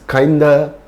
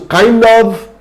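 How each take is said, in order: First: The word of is reduced to a. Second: The word of is pronounced in full.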